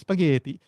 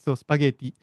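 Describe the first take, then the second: First: The word is said in a plain English accent. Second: The word is said with an Italian-sounding accent.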